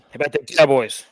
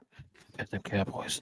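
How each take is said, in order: First: It is said loudly into the microphone. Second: It is said in a soft whisper. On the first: "really loud into your microphone" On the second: "Let me whisper it in your ear"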